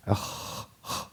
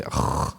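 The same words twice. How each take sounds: First: AKH with soft, smooth breath; light, unexaggerated KH closing AKH; correct kha. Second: AKH with a harsh, rattling scrape; throat-scraping KH at the end of AKH; exaggerated kha. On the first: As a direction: let the KH in AKH just breathe out. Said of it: "This is the kha". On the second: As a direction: overdo the KH in AKH. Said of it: "So don't exaggerate". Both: Shown as a demonstration.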